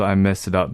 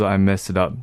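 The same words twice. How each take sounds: First: It is said in a heavy, serious tone. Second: The same.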